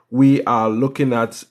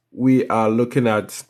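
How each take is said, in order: Both takes have the same delivery.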